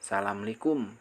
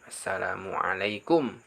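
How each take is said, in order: First: Several syllables of the greeting are dropped. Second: Every syllable of the greeting is said. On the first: The speaker calls it wrong. "bukan salamlikum" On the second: The speaker calls it right. "itu yang benar"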